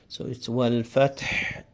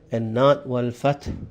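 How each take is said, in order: First: It ends with a heavy, coarse H. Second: It ends with a small, light H. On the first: The speaker calls it right. "It's a coarse or a heavy H sound" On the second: The speaker calls it wrong. "not a small H sound"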